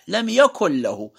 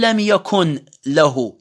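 First: The n sound is merged into the following l. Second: The n sound is clearly pronounced before the l. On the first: The speaker calls it right. "ما لفظت النون، خففت تخفيف بحيث عدم وجوده في اللفظ" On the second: The speaker calls it wrong. "ما أقول لم يكن له"

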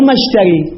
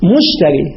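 First: The first vowel is an a sound. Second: The first vowel is a u sound. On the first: The speaker calls it wrong. "مو مفتوح، مو مشتري" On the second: The speaker calls it right. "الميم إخواني مضمومها"

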